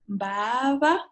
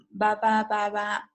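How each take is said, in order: First: First "ba" drawn out long, rising into the second; stressed extended vowel. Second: Said in the usual way. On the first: Shown as a demonstration. Teacher showing learners a stressed syllable, first "ba" held long. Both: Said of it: "where the vowel is extended".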